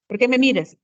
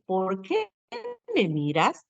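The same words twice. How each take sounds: First: "por qué me miras" said louder, falling at the end; quick "por qué me miras" that drops like a statement; non-questioning tune. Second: "¿Por qué me miras?" drawn out and rising at the end; questioning tune. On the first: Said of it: "si solamente digo". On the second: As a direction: really ask "¿Por qué me miras?", pausing after "qué". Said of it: "a diferencia de decir". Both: Shown as a demonstration.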